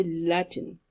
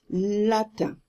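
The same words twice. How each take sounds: First: "Latin" with a sounded t-i-n ending; English-style mispronunciation. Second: "Latin" slow, ending in a French nasal vowel; correct French pronunciation. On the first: Teacher imitates the students' mistake, English mispronunciation. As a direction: say "Latin" the English way, final n heard. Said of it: "you are going to say Latin". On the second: Teacher corrects the students' word, French pronunciation. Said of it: "It's Latin". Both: Shown as a demonstration.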